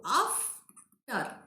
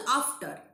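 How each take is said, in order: First: "after" drawn out in two parts, af... ter; syllable by syllable. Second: Said in the usual way. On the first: Shown as a demonstration. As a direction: split "after" with a slow break between syllables. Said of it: "We can take a break in between". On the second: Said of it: "we are pronouncing at a stretch".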